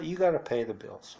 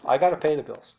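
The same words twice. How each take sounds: First: Said in the usual way. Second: Louder, higher, gotta pressed hard; emphatic restatement. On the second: Real, not acted. Correcting himself to own the bills, emphatic.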